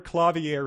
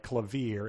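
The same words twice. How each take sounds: First: Clavier said as "cla-vee-AIR"; usual pronunciation. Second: Clavier said as "kla-VEER", with a long I; corrected pronunciation. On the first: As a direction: say clavier in three syllables, ending like "air". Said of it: "The word clavier is pronounced". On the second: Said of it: "supposed to be pronounced long rather than short". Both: Shown as a demonstration.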